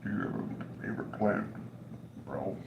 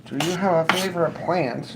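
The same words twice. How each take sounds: First: Soft, breathy whispered repeat; whispered mock question. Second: Said in the usual way. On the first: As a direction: whisper it like a joke. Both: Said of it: "computer's like".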